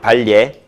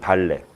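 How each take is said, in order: First: The second syllable has a 'y' glide, 'lye'. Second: The second syllable is a plain 'le' sound.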